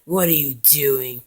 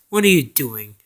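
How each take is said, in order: First: Slow, lightly voiced frog character; a slow, drawn-out challenge in a light character voice; Genghis's voice. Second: Lower, firmer frog character voice; Rasputin's voice. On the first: Confronting Napoleon in Genghis's voice, slow and drawn out. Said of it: "that's Genghis' voice". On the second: Acted. Rasputin stops Napoleon mid-jump, low and firm character voice. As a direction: challenge him in a lightly voiced low tone. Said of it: "he goes like".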